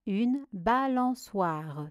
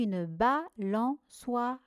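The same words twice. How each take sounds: First: Said in the usual way. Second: "balançoire" in four detached syllables, ending on a separate "re". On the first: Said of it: "Voici la correction". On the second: Shown as a demonstration. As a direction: gaps between all syllables of "balançoire". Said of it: "Première syllabe". (« balançoire » découpé syllabe par syllabe)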